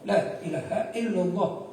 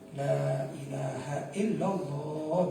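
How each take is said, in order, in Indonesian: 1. Frasa itu diucapkan cepat tetapi tetap teratur. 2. Frasa itu diucapkan lambat dan dipanjangkan. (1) "dengan cepat tapi tetap terukur" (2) "dengan pelan-pelan"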